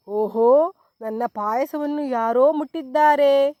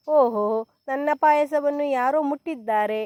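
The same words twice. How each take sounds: First: Loud, gruff papa bear shout; storyteller's bellowing big bear. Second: Mild shout. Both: A narrator's reading. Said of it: "ಎಂದು ಒದರಿತು".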